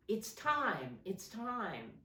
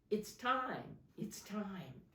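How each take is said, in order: Both takes have the same delivery.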